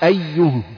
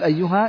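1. تنتهي الكلمة بصوت الهاء الساكن. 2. تنتهي الكلمة بهاء وألف ممدودة. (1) "تقف عليها بالهاء" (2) "لا تقول أيها لأنها رسمت من غير ألف"

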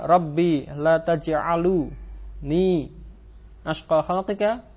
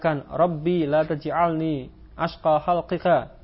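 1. Kata kerja itu berakhir dengan vokal u sebelum ni. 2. Kata kerja itu tidak berakhir dengan vokal sebelum ni. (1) "khata'un, ini keliru" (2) "Sahihun, ini benar"

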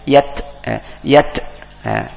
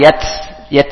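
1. Bunyi t berakhir dengan sedikit hembusan napas yang terdengar. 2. Bunyi t berakhir tanpa hembusan napas yang terdengar. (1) "Ada sedikit keluar napasnya" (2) "bukan yat yat"

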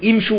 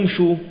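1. تبدأ الكلمة بكسرة. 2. تبدأ الكلمة بضمة.

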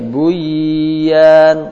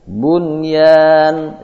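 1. Bunyi n menyatu dengan y yang mengikutinya. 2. Bunyi n diucapkan jelas sebelum y. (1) "Tidak boleh buyan" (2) "Itu dibaca izhar"

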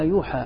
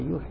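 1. تنتهي الكلمة بصوت 'ah' طويل. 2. تنتهي الكلمة بصوت 'ee' طويل. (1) "لما سمعتها عرفت أني أنا مخطئ" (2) "كنت أنا أقرأها يوحي يوحي يوحي"

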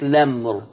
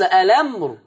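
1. تبدأ الكلمة مباشرة بصوت اللام. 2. تبدأ الكلمة بهمزة وصل وحركة. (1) "أشيل همزة الوصل وأبدأ بالحرف المتحرك لمر" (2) "يثبت همزة الوصل ألمر"

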